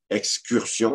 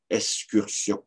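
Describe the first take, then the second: First: Said in the usual way. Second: "excursion" said as "escursion"; X pronounced S. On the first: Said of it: "plutôt que excursion". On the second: Shown as a demonstration. Lecturer showing bel usage, "excursion" as "escursion". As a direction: drop the k sound in "excursion". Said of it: "on va dire excursion".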